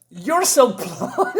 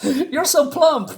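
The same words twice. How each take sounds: First: Much higher, slow, laughing through the words; giggly girl voice. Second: Much higher, slow and clean, no laugh; a prim, sugary high squeak; squeaky girl voice. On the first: Reteller voicing Rula greeting Fifa, high and giggling. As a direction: let the giggle break the line. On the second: Reteller voicing Rula teasing Fifa again, high and composed. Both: Retold or imitated. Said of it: "And she says".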